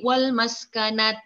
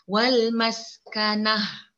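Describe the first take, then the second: First: The word ends with a t sound. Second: The word ends with an h sound. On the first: The speaker calls it wrong. "kalau berhenti wal maskanat" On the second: The speaker calls it right. "kalau kita ni berhenti, yang berperanan bunyi huruf ha"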